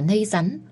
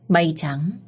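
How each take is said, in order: First: The first sounds are changed, like a toddler's speech. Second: Every sound in the phrase is pronounced clearly. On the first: "đại loại là nây rắn" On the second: "không rõ vành vạch như vậy"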